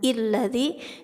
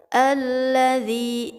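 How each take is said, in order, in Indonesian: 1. Kata alladzi diawali dengan vokal i. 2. Kata alladzi diawali dengan vokal a. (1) "jangan illadzi" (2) "tapi harus dibaca alladzi"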